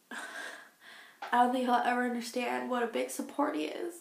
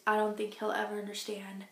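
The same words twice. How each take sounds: First: Laughing. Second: Said in the usual way. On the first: Real, not acted. Repeats line, then laughs.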